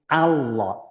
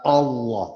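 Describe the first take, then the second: First: The vowel sounds like an open 'a'. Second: The vowel sounds like a rounded 'o'. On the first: The speaker calls it right. "Bacaan yang yang pas sesuai dengan ilmu tajwid itu Allah" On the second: The speaker calls it wrong. "bukan Allah, bukan O tapi A"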